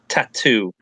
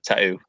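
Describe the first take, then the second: First: The middle T sound is clearly pronounced. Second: The middle T sound is dropped. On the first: "this is how I say say it" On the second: "I used to pronounce it way worse"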